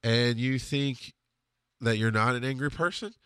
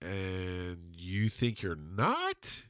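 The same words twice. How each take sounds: First: Flat-out question. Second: Very slow, softer, drawn out to a rising end; deadpan doubt. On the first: Best friend calmly confronts his angry buddy, flat-out. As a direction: put it to him plainly, unhurried. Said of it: "he just flat out goes". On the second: Best friend questions his angry buddy, slow deadpan doubt. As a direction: imitate a friend's unhurried, leading question. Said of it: "he just kinda went". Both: Retold or imitated.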